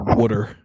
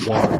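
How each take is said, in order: First: It is said in a Philly accent, like wooder. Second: It is said in a general American accent.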